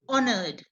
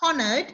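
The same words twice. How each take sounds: First: The word begins with a vowel, the h silent. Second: The word begins with a pronounced h sound. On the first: The speaker calls it right. "It begins with H, but it sounds O" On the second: The speaker calls it wrong. "Not honored"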